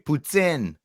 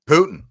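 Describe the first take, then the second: First: The word is said in a careful, fuller way. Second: The word is said in a casual, clipped way. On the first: This is how it is supposed to be said. The speaker calls it right. "That's how I think you're supposed to say it" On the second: This is how the speaker usually says it. The speaker calls it wrong. "I don't say it properly"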